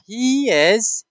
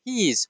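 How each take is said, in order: First: Slow "he is", two separate words; full form. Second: "He is" squeezed to one syllable, he's; contraction. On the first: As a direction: draw out "he is" in full. (شکل کامل و آهسته: he is) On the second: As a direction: say "He is" joined up as he's. (شکل اختصاری: He is مثل he's) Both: Shown as a demonstration. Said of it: "the full form and the contraction form".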